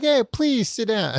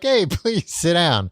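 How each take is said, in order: First: It is said in a warm, friendly tone. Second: It is said in a stern, cold tone. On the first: The interviewer is being welcoming. The speaker calls it right. "people are nice usually" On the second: The interviewer sounds like a strict authority figure. The speaker calls it wrong. "They're not like"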